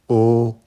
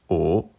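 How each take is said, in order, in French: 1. Le ton reste haut et plat. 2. Le ton monte du milieu au haut. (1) "premier ton" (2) "deuxième ton"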